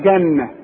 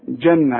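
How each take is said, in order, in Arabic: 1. يبدأ بصوت الجيم المعطشة (g). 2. يبدأ بصوت الجيم الناعمة (j).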